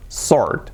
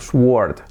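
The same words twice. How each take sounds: First: No W sound is heard after the s. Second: A W sound is heard after the s. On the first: The speaker calls it right. "pero no, sword. Con lo cual, ese sonido, la W fuera" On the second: The speaker calls it wrong. "vemos la W y tendemos a decir ese sonido"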